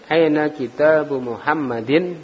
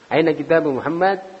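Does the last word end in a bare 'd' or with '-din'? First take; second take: -din; bare d. First: The last word ends with a full -din ending. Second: The last word ends on a bare d sound. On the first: The speaker calls it right. "ya harus jelas" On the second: The speaker calls it wrong. "itu berarti sukun dalnya"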